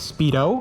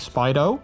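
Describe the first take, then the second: First: It sounds like the swimwear brand Speedo. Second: It does not sound like the swimwear brand. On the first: This is how many people say the name. The speaker calls it wrong. "a lot of people always uh, pronounce it as Speedo, like, you know, the, like the tr swimming trunks" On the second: This is how the owner intended the name. The speaker calls it right. "initially I intended it to be Spido"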